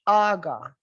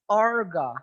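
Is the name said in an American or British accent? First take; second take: British; American. First: The R is dropped, British style. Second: The R is clearly pronounced, American style. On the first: "Tapi kalau dalam British" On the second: "kalau nama aga dalam American English, maka R-nya jelas"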